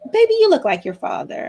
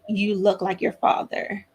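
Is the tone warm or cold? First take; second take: warm; cold. First: It is said in a warm, affectionate tone. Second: It is said in a cold, resentful tone.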